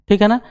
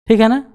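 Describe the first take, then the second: No difference in how they are said.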